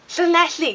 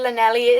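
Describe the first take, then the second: First: The name is said with a Welsh pronunciation. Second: The name is said with an anglicized pronunciation. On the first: A local who knows Welsh says it. The speaker calls it right. "No, it's Llanelli" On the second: A visitor unfamiliar with Welsh says it. The speaker calls it wrong. "we have tourists come someplace and they're like"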